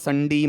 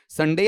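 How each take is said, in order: First: The last syllable sounds like 'dee'. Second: The last syllable sounds like 'day'. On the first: The speaker calls it wrong. "अब वो मत चले जाना American वाला" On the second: The speaker calls it right. "डे sound ऐसा जाएगा"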